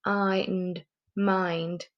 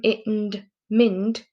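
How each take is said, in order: First: "mind" sounded out slowly with the long i vowel. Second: "mind" sounded out slowly with a short i; wrong short i. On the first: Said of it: "so I went back and went". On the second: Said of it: "It's okay to do m, it, and mind". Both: Shown as a demonstration.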